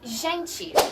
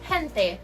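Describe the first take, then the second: First: It is said with a Brazilian Portuguese pronunciation. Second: It is said with a Spanish pronunciation. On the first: "in Brazilian Portuguese ... they say" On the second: "In Spanish, the word gente is pronounced as"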